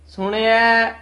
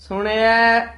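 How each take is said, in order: Both takes have the same delivery.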